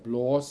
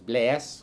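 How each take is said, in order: First: The vowel is a rounded 'aw' sound. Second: The vowel is a sharp, spread 'ae' sound. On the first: This is the usual way of saying it. "instead of blås" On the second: This is how the local dialect says it. "it was a much sharper, ... it was blæs"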